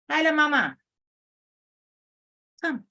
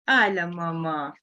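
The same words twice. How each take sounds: First: Calling the dog. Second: Said in the usual way. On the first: Real, not acted. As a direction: call out to the dog so she comes.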